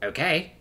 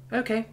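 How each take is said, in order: First: Rising, questioning "Okay?"; unsure. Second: High, simple OKAY of agreement; agreeing. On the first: Chuck checking she heard her lover right, unsure. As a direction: say "Okay?" as a doubtful echo, pitched up. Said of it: "unsure if she heard right". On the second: Simone cutting in to accept the proposal, agreeing. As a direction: say "Okay" as a quick, high-pitched yes. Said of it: "Simone agrees with a nod". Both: A narrator's reading.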